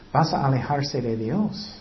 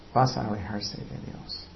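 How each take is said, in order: First: Said in the usual way. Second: Much softer, lower repeated warning; quiet echo. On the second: Real, not acted. Preacher echoing the warning to the congregation, much softer. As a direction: let the warning sink, hushed.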